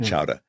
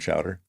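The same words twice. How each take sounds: First: The word is said in a Boston accent. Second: The word is said in a general American accent. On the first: "as they say in Boston" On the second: "like clam chowder"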